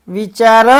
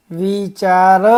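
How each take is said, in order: First: વિચાર brisker and a little louder; loud drill word. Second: વિચાર with long held vowels. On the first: Teacher leads children to repeat after them, loudly. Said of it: "બોલજો જોરથી". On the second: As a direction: stretch વિચાર out syllable by syllable. First slow reading of the word list. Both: Shown as a demonstration.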